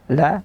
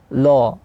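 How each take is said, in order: First: The vowel is open and thin, like a. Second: The vowel is rounded, like o. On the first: The speaker calls it right. "kita baca la secara infitah, terbuka rahangnya dan tipis" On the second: The speaker calls it wrong. "dibunyikan o di la ... itu salah"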